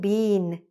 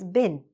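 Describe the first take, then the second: First: The vowel is drawn out long and full. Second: The vowel is said short and quick. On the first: The speaker calls it wrong. "I'm not saying been" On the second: The speaker calls it right. "It's short"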